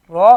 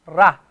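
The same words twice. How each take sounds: First: "ra" said as rounded "ro". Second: "ra" said with an open "a", no rounding; the wrong "ra", flat and unrounded. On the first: Teacher contrasting right and wrong "ra" for students. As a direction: lips rounded on "ra", like "ro". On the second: Teacher showing students the wrong "ra". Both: Shown as a demonstration. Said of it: "You cannot say".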